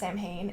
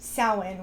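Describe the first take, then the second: First: It is said not rhyming with 'Cowan'. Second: It is said to rhyme with 'Cowan'. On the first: The speaker calls it wrong. "Halloween two lied to you. It is not pronounced Samhain" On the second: The speaker calls it right. "It is pronounced Samhain, which doesn't make sense phonetically to English speakers"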